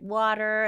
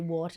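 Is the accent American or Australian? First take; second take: American; Australian. First: It is said in an American accent. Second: It is said in an Australian accent. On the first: "He's got a little American accent" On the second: "I say water"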